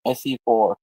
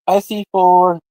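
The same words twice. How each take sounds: First: Said in the usual way. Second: Louder, drawn-out call; emphatic repeat. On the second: Real, not acted. Repeating the count of four, louder and drawn out.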